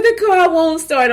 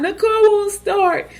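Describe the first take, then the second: First: High, wailing plea; imitating herself crying on the phone; retold crying. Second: High, slow wailing repeat; retold crying, higher. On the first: Crying to her husband that the car won't start. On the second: Crying on the phone to her husband. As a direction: whimper it out like a helpless new mom. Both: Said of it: "I'm crying".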